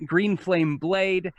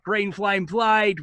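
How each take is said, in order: First: Said in the usual way. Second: Put-on drawn-out, raised Boston-accented cry; mock yell, slow, high, Boston vowels; Bostonian battle yell. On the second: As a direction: call out the spell in a Bostonian accent. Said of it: "which he always yells out".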